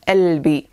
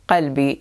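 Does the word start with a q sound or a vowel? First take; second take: vowel; q sound. First: The word starts with a vowel, no q sound. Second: The word starts with a deep q sound. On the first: This is the Egyptian and Levantine dialect form. "they do not pronounce the qaf. They replace it with nothing" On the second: This is the modern standard Arabic form. "qalbi in modern standard Arabic"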